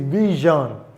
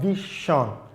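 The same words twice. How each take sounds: First: The middle consonant is a voiced zh sound. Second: The middle consonant is not a zh sound. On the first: The speaker calls it right. "It is vision" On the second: The speaker calls it wrong. "not vision"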